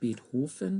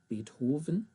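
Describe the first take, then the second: First: The middle consonant sounds like an F. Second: The middle consonant sounds like a V. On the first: The speaker calls it wrong. "it's not Beethoven" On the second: The speaker calls it right. "it almost sounds like a V rather than the F"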